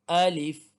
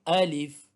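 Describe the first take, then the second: Both takes have the same delivery.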